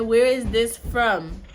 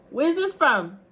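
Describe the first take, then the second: First: Loud, slow, higher-pitched question; insistent repeat. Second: Loud, high shouted question; calling out. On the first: Mother repeating question to son, insistently loud. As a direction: space the words out loudly to be heard. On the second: Quizzing her son from afar, calling out. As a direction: project it to another room. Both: Real, not acted.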